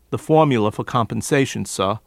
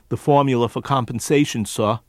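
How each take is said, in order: The two takes are said the same way.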